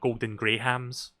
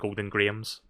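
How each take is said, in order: First: The H in Grahams is clearly pronounced. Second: The H in Grahams is silent. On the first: "when you pronounce the H in Golden Grahams" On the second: "funnier to say than"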